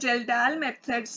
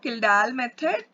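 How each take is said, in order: First: The name begins with a 'j' sound. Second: The name begins with a 'k' sound. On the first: "वो होता है जेल्डाल method से" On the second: "इसको किल्डाल method भी बोलते हैं"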